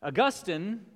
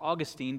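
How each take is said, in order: First: Augustine stressed on the middle syllable, uh-GUS-tin; pronunciation variant. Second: Put-on Augustine stressed on the first syllable, AW-gus-teen; alternative pronunciation. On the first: Preacher naming the church father, Augustine said uh-GUS-tin. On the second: Preacher offering the other version, Augustine said AW-gus-teen. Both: Shown as a demonstration. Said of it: "depending on how you want to do it".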